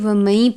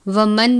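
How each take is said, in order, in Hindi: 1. n नासिक्य y की आवाज़ में मिल जाता है। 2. n की आवाज़ साफ़ बोली जाती है। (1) "गुन्ना करके पढ़ेंगे ... बल्कि वमई पढ़ेंगे या की आवाज़ के साथ" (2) "हम वमन नहीं पढ़ेंगे"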